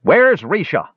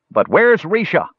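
First: High-pitched demand from a crowd. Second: High-pitched, pressing repeat of a demand; insistent. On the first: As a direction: call out sharply for an answer. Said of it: "demanded someone from the back of the mob". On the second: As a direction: insist on an answer. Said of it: "insisted the elf at the back of the mob". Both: A narrator's reading.

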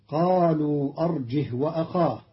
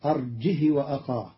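First: أرجه with the ha unvowelled; standard reading. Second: أرجه said as arjihi with a kasra on the ha; Qalun's reading. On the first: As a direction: say أرجه ending in a still h. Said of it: "قرأ قالون كلمة أرجه". (أرجه بإسكان الهاء) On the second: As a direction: give the ha of أرجه an i vowel. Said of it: "بكسر الهاء". (أرجه بكسر الهاء) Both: Shown as a demonstration.

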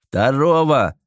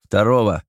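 First: Barked order. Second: A lightly raised call over the noise; shouting orders over battle. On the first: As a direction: bark the order over battle noise. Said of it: "рявкнул командир десанта". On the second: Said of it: "крикнули ему". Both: A narrator's reading.

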